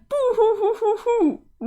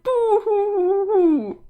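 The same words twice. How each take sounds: First: Mock boo-hoo crying. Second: Slow, high, loud cartoon wail of boo hoo; hammed-up boo-hoo crying. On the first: Sprite mourning her lost friends. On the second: Sprite wailing at the friend who won't stop her, slow hammed-up boo-hoo. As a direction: wail it out like a theatrical crybaby. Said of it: "you're crying".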